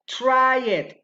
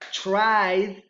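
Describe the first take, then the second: First: The ending is an extra syllable. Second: The ending adds no extra syllable. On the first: The speaker calls it wrong. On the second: The speaker calls it right. "Those are correct"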